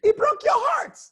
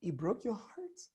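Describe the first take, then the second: First: Pitched way up and louder; emotional line, high and loud. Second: Tender near-hush; gently ask, very soft; low, soft tone. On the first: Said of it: "You can say, for instance". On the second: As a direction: drop to a hushed, soft question. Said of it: "your tone should really go low". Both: Shown as a demonstration.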